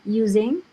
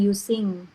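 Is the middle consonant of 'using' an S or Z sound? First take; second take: Z; S. First: The middle consonant is a buzzing Z sound. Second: The middle consonant is a hissing S sound. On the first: The speaker calls it right. "pakai Z ya" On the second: The speaker calls it wrong.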